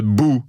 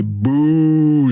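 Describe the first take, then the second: First: Short, abrupt "bou"; a quick boo to make someone jump; startling boo. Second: Long drawn-out "bouh"; jeering boo. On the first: Showing what you say to startle someone, short boo. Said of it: "quand tu veux faire le saut à quelqu'un". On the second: Showing what you say to boo someone, long jeer. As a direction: boo like a disapproving crowd. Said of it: "quand tu veux huer quelqu'un". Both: Shown as a demonstration.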